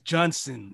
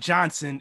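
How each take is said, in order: First: The first syllable sounds like Jun. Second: The first syllable sounds like John. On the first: The speaker calls it right. "it's Johnson. It's JUNSON" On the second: The speaker calls it wrong. "it's not Johnson"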